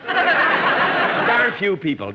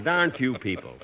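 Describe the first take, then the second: First: Loud, slow, high outraged repeat; indignant echo. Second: Said in the usual way. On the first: Acted. Jack echoes Don's crack in loud outrage. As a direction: throw the insult back in disbelief.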